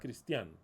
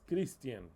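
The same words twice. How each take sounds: First: The stress is on the last syllable. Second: The stress is on the first syllable. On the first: The speaker calls it wrong. "you put an accent mark in the A" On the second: The speaker calls it right.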